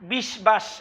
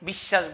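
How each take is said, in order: First: The written 'b' sound after 'sh' is pronounced. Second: The 'sh' has no 'b' sound after it. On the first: The speaker calls it wrong. "এরকম তো বলে না" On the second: The speaker calls it right. "বলে"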